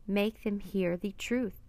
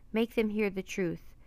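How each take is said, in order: First: Slow, measured restatement; deliberate repeat. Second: Sudden outburst. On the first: Jack repeats his wish for Annie, slow and deliberate. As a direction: spell it out slowly, word by word. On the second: Jack blurts his five-word wish, a mild outburst. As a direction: blurt it out in one go. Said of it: "The words had burst out of Jack". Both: A narrator's reading.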